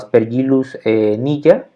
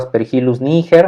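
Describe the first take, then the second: First: The name is pronounced with Latin sound rules. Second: The name is read as spelled, Spanish style. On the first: The speaker calls it right. "Esa sería la pronunciación correcta" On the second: The speaker calls it wrong. "así como bien escrito"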